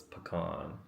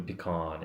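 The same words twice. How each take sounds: First: "pecan" said puh-KAHN, softly; soft uh first, then stressed KAHN in "pecan"; corrected pronunciation. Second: "pecan" said pee-KAHN; mistaken pronunciation. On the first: Settling the correction for viewers, "pecan" as puh-KAHN. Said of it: "It's pecan". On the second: Showing the earlier mistaken way, "pecan" as pee-KAHN. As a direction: clear EE in the first syllable of "pecan". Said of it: "it wasn't even pecan". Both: Shown as a demonstration.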